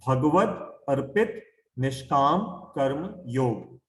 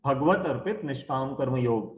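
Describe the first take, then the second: First: Spaced out slowly with pauses between words. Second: Said in the usual way. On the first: Shown as a demonstration. Teacher introducing a difficult new term to listeners, slowly. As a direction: say it slowly, one word at a time. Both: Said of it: "मैं धीरे धीरे बोलूंगा".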